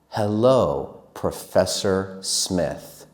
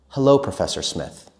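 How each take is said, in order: First: It is said very slowly. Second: It is said at normal conversational speed. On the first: "This is slow" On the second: "and normal"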